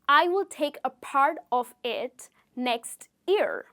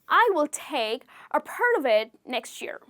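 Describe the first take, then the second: First: Each word is said separately, without linking. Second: The words run together in connected speech. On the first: "the sentence actually is" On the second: "A native speaker would say"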